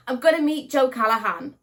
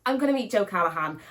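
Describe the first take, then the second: First: Louder, higher burst of real excitement; excited repeat. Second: Said in the usual way. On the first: Real, not acted. Vlogger telling viewers she'll meet her favourite author, excited. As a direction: say it again, thrilled to meet an author.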